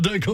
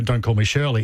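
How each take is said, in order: First: It is said with a smirk, half laughing. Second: It is said deadpan, perfectly straight.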